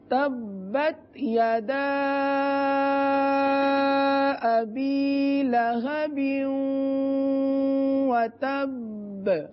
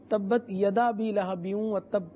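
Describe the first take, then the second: First: The long vowels are stretched to full length. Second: The long vowels are rushed and cut short. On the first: The speaker calls it right. "درست طریقے سے پڑھیں گے" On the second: The speaker calls it wrong. "جلد بازی میں مدہ چھوڑ دیے جاتے ہیں"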